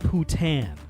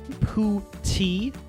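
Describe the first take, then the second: First: The word ends without an 'ee' sound. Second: The word ends with an 'ee' sound. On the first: The speaker calls it wrong. "not Putan" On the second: The speaker calls it right. "the way they pronounce the one way is like P O U dash T E E"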